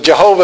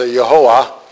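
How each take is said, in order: First: The name begins with a J sound. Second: The name begins with a Y sound. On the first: The speaker calls it wrong. "Jehovah is not an accurate translation" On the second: The speaker calls it right. "You'd have to go back to Yehoah to say it properly"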